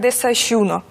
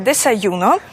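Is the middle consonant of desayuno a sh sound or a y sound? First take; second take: sh sound; y sound. First: The middle consonant is a sh sound. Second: The middle consonant is a y sound.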